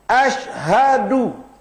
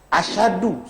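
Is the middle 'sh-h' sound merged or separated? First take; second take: separated; merged. First: The s and h are pronounced as separate sounds. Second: The s and h merge into one sh sound. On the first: The speaker calls it right. "ada haknya" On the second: The speaker calls it wrong. "Asyhadu salah"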